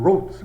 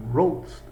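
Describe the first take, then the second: First: Wrote spat out short and a bit louder, like a bark; barked like a dog. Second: Said in the usual way. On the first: Shown as a demonstration. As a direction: bark the word Wrote, one clipped hit. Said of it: "Igual um latido". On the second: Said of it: "É difícil falar, né?".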